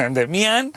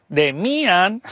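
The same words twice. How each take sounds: First: "Demian" as de-mi-AN, rising; stress on the A. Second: "Demian" as de-MI-an, rising; stress on the I. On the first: Host offering the other option, "Demian" stressed on A. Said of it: "o acento en la A". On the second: Host offering a pronunciation, "Demian" stressed on I. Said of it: "con acento en la I". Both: Shown as a demonstration.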